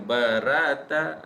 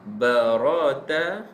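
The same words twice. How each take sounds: First: The r sound is thin and light. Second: The r sound is thick and heavy. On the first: The speaker calls it wrong. "bukan barata" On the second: The speaker calls it right. "bila baris atas dia kita sebut sebagai tebal"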